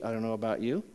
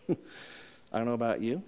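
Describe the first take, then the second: First: Said in the usual way. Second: Slower, laughing through the line; teasing laugh. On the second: Real, not acted. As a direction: tease the congregation with a chuckle.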